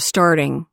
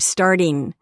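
First: The ending sounds like ing. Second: The ending sounds like een. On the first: "instead of" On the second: "the ing endings would be een"

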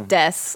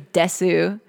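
First: The final vowel is dropped. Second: The final vowel is clearly pronounced. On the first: The speaker calls it right. "you would just say des. Like, you don't need the oo" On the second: The speaker calls it wrong. "People don't say desu"

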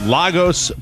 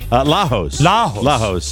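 First: The middle consonant is a hard G sound. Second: The middle consonant is an H sound. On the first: "It's a G" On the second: "but they pronounce it H"

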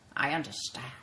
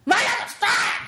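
First: It is said calmly, as a plain statement. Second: It is said explosively, with crazy dramatic force.

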